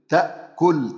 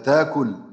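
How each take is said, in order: First: The glottal stop is clearly pronounced. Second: The glottal stop becomes a long vowel.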